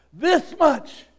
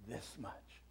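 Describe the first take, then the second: First: This much higher and louder, falling; loud answer. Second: This much said very softly, falling; hushed answer. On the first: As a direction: proclaim This much. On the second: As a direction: breathe This much tenderly. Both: Acted. Jesus answers on the cross.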